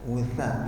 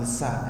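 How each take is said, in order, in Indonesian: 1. Konsonan di tengahnya bunyi 'th'. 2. Konsonan di tengahnya bunyi 's'. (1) "Lidahnya keluar dikit. Tha ya" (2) "bukan wusa ya"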